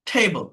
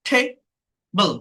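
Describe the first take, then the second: First: Said in the usual way. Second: "table" broken in two, a pause between; split into syllables. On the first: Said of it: "that is called syllable". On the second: Shown as a demonstration. Teacher counting syllables for learners, "table" split apart. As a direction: say "table" as two separate beats. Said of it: "two syllable".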